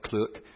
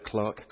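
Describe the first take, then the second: First: "clerk" said as "clurk"; American "clerk", rhyming with "jerk"; American pronunciation. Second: "clerk" said as "clark"; British "clerk", sounding like "clark"; British pronunciation. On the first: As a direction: say "clerk" with an er vowel, rhyming with work. Corrects himself to American pronunciation. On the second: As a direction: say "clerk" with an ah vowel, rhyming with park. British word, then American version. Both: Shown as a demonstration.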